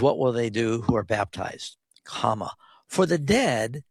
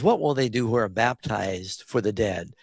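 First: There is a break after baptized. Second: It runs on without a break after baptized.

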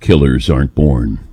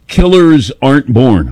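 First: It is said in a dramatic announcer voice. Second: It is said in a plain speaking voice.

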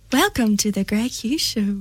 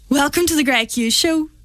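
First: It is said in a flirty tone. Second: It is said in a snappy tone.

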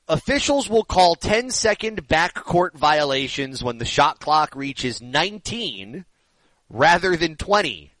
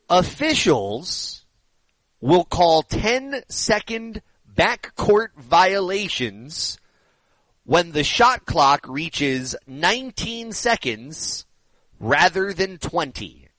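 First: It is read at a normal pace. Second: It is read very slowly.

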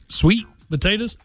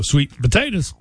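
First: The stress is on sweet. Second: The stress is on potatoes.

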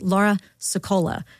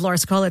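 First: A short pause separates the two names. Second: Both names run together without a pause.

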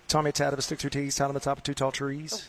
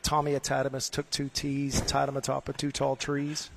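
First: It is said quickly, at a fast pace. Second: It is said at a normal, unhurried speed.

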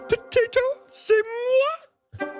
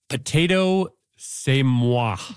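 First: It is read in a put-on voice. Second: It is read in her normal voice.

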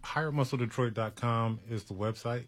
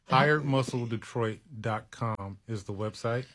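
First: It is said at a quick pace. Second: It is said at a slow pace.

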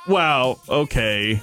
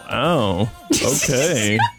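First: It sounds sarcastic. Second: It sounds flirty.

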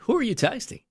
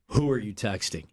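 First: It is said in a light, playful tone. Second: It is said in a harsh, accusing tone.

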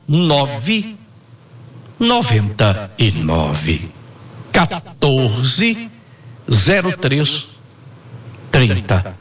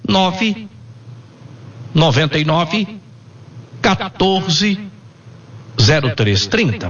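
First: The number is said slowly. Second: The number is said at normal speed.

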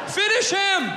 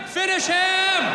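No difference in how they are said.

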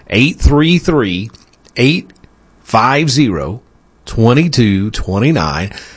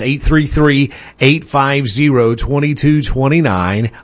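First: It is read at a slower pace. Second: It is read at a quicker pace.

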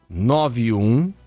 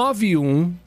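First: It is said slowly. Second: It is said at a faster pace.

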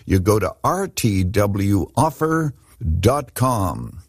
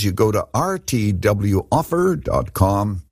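First: It is said slowly. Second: It is said quickly.

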